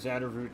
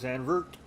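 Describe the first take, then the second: First: The name is said with three syllables. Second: The name is said with two syllables. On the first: The speaker calls it wrong. "not Xander" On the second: The speaker calls it right. "Zandvoort today, not Xander, Zandvoort"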